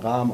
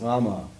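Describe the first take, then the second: First: The name ends without a final vowel sound. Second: The name ends with a final vowel sound. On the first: "wird auch immer Rahm ausgesprochen in Indien. Das A wird immer weggelassen" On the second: "Rahmen ist Rama"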